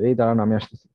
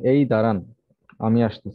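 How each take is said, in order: First: 'দাঁড়ান আমি আসতেছি' runs on without a pause. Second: A pause splits the sentence after 'দাঁড়ান'. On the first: The listener should slow down because the speaker is following. "এভাবে যদি বলা হয় অন্যভাবে" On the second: The listener should wait here while the speaker goes somewhere and returns. "এটা বলতে বোঝাচ্ছে আপনি একটু দাঁড়ান এখানে"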